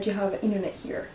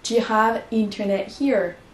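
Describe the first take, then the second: First: The T after the N is dropped. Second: The T after the N is pronounced. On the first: "quand on dit" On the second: "on ne vous attendez pas à entendre"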